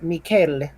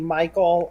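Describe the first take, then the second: First: The name is pronounced with Swedish sounds. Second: The name is pronounced with English sounds. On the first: "in Swedish it's uh, Mikael" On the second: "the English pronunciation for that would just be Michael"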